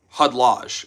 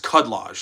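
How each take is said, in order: First: The opening K sound is silent. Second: The opening K sound is pronounced. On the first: The speaker calls it wrong. "has a silent K" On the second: The speaker calls it right. "It's Cudlage"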